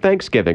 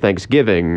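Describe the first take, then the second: First: The stress is on the first part, thanks. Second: The stress is on the second part, giving. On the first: This is how it is said in the South. "the Southern habit of saying Thanksgiving" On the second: This is how it is said up north. "We hit the giving instead of the thanks"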